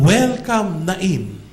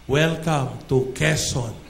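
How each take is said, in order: First: "Welcome" called out high and loud, "Nain" dropping back; grand welcome. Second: Said in the usual way. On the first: Shown as a demonstration. Preacher hailing the town of Nain, loud and excited. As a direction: announce the town like a big banner greeting. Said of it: "doon naman". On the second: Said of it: "nakalagay doon".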